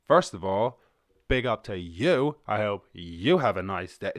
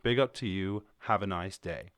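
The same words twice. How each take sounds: First: Accidentally aggressive. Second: Said in the usual way. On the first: Shown as a demonstration. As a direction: bark the friendly greeting a bit too hard. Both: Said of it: "that sounded a little bit aggressive".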